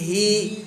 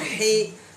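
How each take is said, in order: First: The i vowel is full and clear. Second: The i vowel is weak and unclear. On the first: The speaker calls it right. "tapi hi. Jelaskan kasrohnya" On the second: The speaker calls it wrong. "jangan jangan hi"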